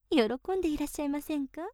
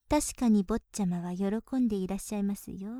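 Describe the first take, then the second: First: Rushed playful question stressing 喜んで; quick teasing question. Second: Lower, settled 確かに stressed at the start; lower knowing reply. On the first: Maid teasing her master, quick question. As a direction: toss off 喜んでいらっしゃいませんか quickly. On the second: Maid confirming to her master, lower and knowing. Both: Acted.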